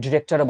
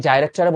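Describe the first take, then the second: First: ডিরেক্টরে said with a short "di" as in "di-rector"; American pronunciation. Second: ডাইরেক্টরে said with a long "dai" as in "die-rector"; British pronunciation. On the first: Teacher contrasts for students the American "di-rector" with the British one. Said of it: "একটা American উচ্চারণ". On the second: Teacher shows students the British way, saying director as "die-rector". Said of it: "একটা British উচ্চারণ". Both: Shown as a demonstration.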